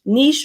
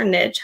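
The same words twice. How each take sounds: First: "niche" rhyming with leash; niche as "neesh". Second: "niche" rhyming with pitch; niche as "nitch". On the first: Host offers both versions of a debated word, "niche" as "neesh". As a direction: say "niche" as "neesh", long ee ending in sh. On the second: Host offers both versions of a debated word, "niche" as "nitch". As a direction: say "niche" as "nitch", short i ending in tch. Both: Shown as a demonstration. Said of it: "however you wanna say it".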